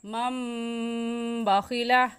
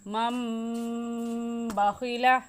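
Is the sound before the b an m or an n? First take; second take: m; m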